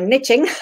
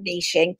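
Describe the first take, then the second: First: The word is said the American way. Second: The word is said in a non-American way.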